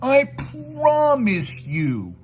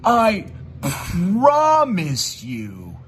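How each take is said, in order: First: Much higher, very slow mock plea; mocking fake promise. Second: Slow, drawn-out mock sincerity; mocking imitation. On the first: Mocking his rival's fake promise, high and very slow. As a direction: stretch it out like a bad liar. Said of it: "they're lying". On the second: Mocking his rival's fake promise, slow and drawn out. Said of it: "made that one believable for me".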